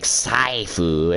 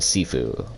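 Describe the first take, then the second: First: It starts with s and an eye vowel. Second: It starts with a plain s and ee. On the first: The speaker calls it wrong. "there's no A I in there" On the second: The speaker calls it right. "I think it's Sifu, though, because there's no S H"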